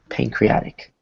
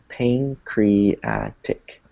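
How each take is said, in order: First: The word is said smoothly as one unit. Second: The word is split into separate syllables. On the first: "bring it together into the actual pronunciation of the word" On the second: "let's break it down into syllables"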